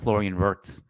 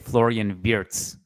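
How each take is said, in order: First: The surname sounds anglicized. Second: The surname sounds closer to German. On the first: The speaker calls it wrong. "not Florian Wirtz" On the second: The speaker calls it right. "to be able to say Florian Wirtz"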